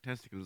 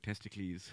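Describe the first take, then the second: First: The word is pronounced the ordinary English way. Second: The word is pronounced like an ancient Greek name.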